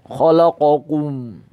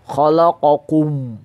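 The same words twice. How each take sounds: First: The final kum sounds thick and heavy. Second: The final kum sounds thick and heavy.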